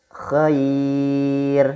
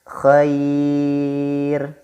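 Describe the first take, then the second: Both takes have the same delivery.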